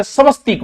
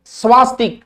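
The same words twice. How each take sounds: First: स्वस्तिक as sa-vas-tik; correct pronunciation. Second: स्वास्तिक with long aa; wrong pronunciation. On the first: Teacher giving the correct word, careful pronunciation. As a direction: say स्वस्तिक with short a. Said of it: "स्वस्तिक वे". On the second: Teacher showing students the mistake, mispronounced demo. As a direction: say स्वास्तिक as svaas-tik. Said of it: "स्वास्तिक को नहीं वे". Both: Shown as a demonstration.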